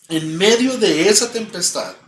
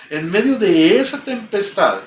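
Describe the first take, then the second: No difference in how they are said.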